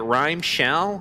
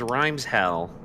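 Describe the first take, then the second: First: The s sound starts the second word. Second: The s sound ends the first word. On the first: "You guys pronounce it rhyme shell?" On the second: "I thought it was rhymes hell"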